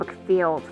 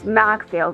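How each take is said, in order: First: The first syllable has a reduced 'muck' vowel. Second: The first syllable has a full 'mack' vowel. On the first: The speaker calls it wrong. "instead of McField" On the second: The speaker calls it right. "I think it's Macfield"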